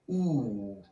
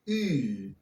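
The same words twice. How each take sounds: First: The vowel is made far back in the mouth. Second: The vowel is made further forward in the mouth. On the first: This is the older, traditional pronunciation. "To pronounce it with a classic pronunciation" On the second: This is the newer, modern pronunciation. "if you like to use the modern pronunciation"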